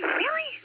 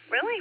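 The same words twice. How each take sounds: First: High, astonished squeak of disbelief; can't believe the weather news; surprised. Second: Said in the usual way. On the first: Real, not acted. Host reacting to a listener's weather, pitched way up in disbelief.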